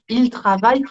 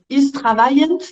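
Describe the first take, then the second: First: The final -ent of the verb is silent. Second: The final -ent of the verb is pronounced. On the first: The speaker calls it right. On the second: The speaker calls it wrong.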